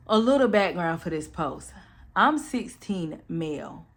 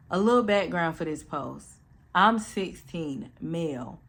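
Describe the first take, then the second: No difference in how they are said.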